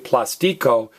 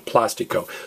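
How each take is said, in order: First: The stress is on the middle syllable. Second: The stress is not on the middle syllable. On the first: The speaker calls it wrong. "Don't say plastico" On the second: The speaker calls it right. "stress me"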